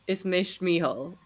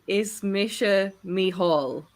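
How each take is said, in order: First: The first word ends with a bare 'sh' sound. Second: The first word ends with a 'sha' sound. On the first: The speaker calls it wrong. "he's saying it wrong. He's just saying Ish" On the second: The speaker calls it right. "He's trying to say Ismisha Mihal"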